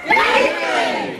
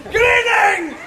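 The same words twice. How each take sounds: First: Very high, slow, airy wail; spooky ghost greeting. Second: Bright, high call to the crowd; loud greeting. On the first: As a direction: drag it out like a ghost. Second, spookier greeting take. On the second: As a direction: hail the group cheerfully. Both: Acted.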